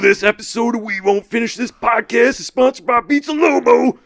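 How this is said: It is read in a put-on dramatic character voice.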